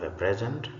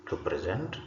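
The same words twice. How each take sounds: First: A PRESent, noun stress; stress on first syllable. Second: To preSENT, verb stress; stress on second syllable. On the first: Teacher reads the bold noun, first-syllable stress on "present". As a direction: hit "pres" in "a present". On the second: Teacher reads the bold verb, second-syllable stress on "present". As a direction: hit "sent" in "to present". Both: Shown as a demonstration. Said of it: "emphasis is going to be on the words".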